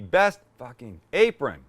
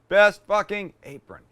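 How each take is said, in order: First: The word apron carries the main stress. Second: The word fucking carries the main stress. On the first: The speaker calls it right. "Should be" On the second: The speaker calls it wrong.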